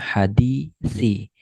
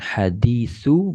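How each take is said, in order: First: The word ends in the vowel i. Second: The word ends in the vowel u. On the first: The speaker calls it right. "berarti ini dibaca hadisi" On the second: The speaker calls it wrong. "bukan hadisu"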